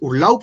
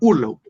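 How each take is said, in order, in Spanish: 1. El acento está en la segunda sílaba. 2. El acento está en la primera sílaba. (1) "tú no dices Urlaub" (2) "está en la primera ur"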